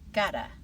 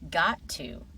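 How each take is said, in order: First: The words are blended into two short syllables. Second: Both words are said fully and separately.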